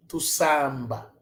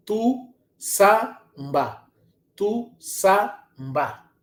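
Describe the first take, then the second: First: Said in the usual way. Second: "tu samba" slowed right down, syllable by syllable, with TU leaned on; slow model pronunciation. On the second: Shown as a demonstration. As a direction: spell out "tu samba" slowly for the students, stressing TU.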